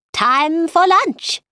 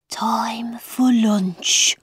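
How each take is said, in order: First: Slow, high announcement; Mad Hatter proclaiming. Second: Slow, drawn-out whisper. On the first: Mad Hatter ending his tale of Time, proclaiming. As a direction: announce it grandly, drawn out and high. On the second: March Hare echoing the Mad Hatter, whispering. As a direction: whisper it like an eerie echo. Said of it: "whispered the March Hare". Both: A narrator's reading.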